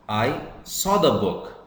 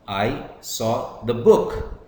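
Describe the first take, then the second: First: The stress is on the word saw. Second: The stress is on the word book. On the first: I only saw it and did not take it. "Here it means I saw the book, but I did not take it" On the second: It was this book and not something else. "I'm stressing the book"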